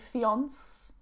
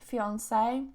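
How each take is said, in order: First: The final E is silent. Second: The final E is pronounced. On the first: The speaker calls it wrong. "I don't say fiance" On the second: The speaker calls it right. "I add the uh, E at the end"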